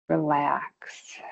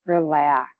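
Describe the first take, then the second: First: Soft, low, breathy whispered cue; whispered relax. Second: Said in the usual way. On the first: Real, not acted. Instructor cueing the release of the feet, whispered. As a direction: let the word go out on a whisper.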